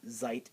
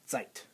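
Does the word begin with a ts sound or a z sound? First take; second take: z sound; ts sound. First: The word begins with a buzzing z sound. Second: The word begins with a ts sound. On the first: The speaker calls it wrong. "It's not Zeit" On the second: The speaker calls it right. "it's Zeit. ... like a T S together"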